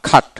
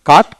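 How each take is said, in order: First: "খাট" opening on a breathy KH; aspirated C. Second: Said in the usual way. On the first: Shown as a demonstration. Teacher reminding learners how C sounds in cut, aspirated KH. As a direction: say cut as "খাট", puffing the first K. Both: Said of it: "সেতে কিন্তু খ উচ্চারিত হয়".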